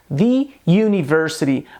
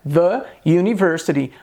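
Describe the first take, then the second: First: 'The' is said with a long 'ee' vowel. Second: 'The' is said with a short 'uh' vowel. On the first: The speaker calls it wrong. "a gente não deve dizer the university" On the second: The speaker calls it right. "o correto é the university"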